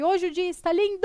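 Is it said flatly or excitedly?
excitedly. It is said excitedly, as an exclamation.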